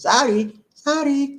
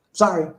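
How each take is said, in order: First: Higher-pitched Filipino "sorry" with a tapped r; Filipino accent. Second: Said in the usual way. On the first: Shown as a demonstration. Showing how Filipinos say sorry, in a Filipino accent. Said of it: "That's how they say it in the Philippines". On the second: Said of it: "In the Philippines".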